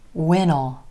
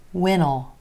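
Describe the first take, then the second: First: Will is reduced and joined onto when. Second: The same.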